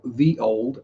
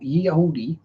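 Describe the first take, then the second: First: The first word begins with a th sound. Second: The first word begins with a y sound.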